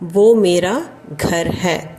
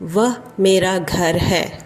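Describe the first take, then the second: First: The first word is said as 'vo'. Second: The first word is said as 'vah'. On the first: This is the everyday spoken form. "பேச்சு வழக்கில் எப்பவுமே வ வராமல் ஓ அப்படின்னு தான் சொல்லுவோம்" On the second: This is the written, formal form. "ஒருமைக்கு வஹ் அப்படின்னு தான் ரிட்டன் ஹிந்தியில் வரும்"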